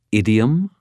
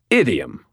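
First: Put-on faint British accent on Idiom; a hint of British accent; slight British accent. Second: Lightly voiced John Cleese, declaring Idiom; pompous Cleese-style Idiom; John Cleese impression. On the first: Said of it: "a very slight British accent". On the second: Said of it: "my best John Cleese impersonation".

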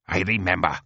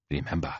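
First: Curt, angry comeback; snapped retort. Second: Low, soft queenly reminder; mild warning. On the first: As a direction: snap it back at the queen. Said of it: "snaps Ulibar". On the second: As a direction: warn mildly, without raising the voice. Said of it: "says Mastiat mildly". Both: Acted.

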